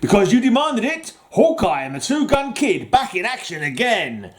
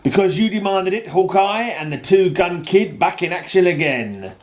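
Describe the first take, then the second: First: A clear break separates 'demanded it' from 'Hawkeye'. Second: 'Demanded it' runs straight on into 'Hawkeye'. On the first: The readers demanded it. The speaker calls it right. "Let's try that again" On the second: Hawkeye is the one who demanded it. The speaker calls it wrong. "I said that wrong, didn't I? I made it sound like Hawkeye demanded it"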